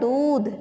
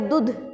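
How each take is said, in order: First: The vowel is long and drawn out. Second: The vowel is short and quick. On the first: The speaker calls it right. "हमें बोलना है दूध" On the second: The speaker calls it wrong. "दूध ये बन गया दूध"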